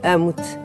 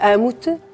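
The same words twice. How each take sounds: First: It is said flatly and without conviction. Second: It is said warmly and sincerely. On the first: The speaker does not really love the listener. The speaker calls it wrong. "porque eu estou na minha cabeça a dizer eu não te amo" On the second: The speaker really means the love. The speaker calls it right. "Eu posso dizer-te amo-te"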